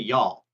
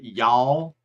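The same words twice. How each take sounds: First: It is said without a Texan accent. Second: It is said with a Texan accent. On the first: "I say y'all" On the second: "a Texan says it y'all"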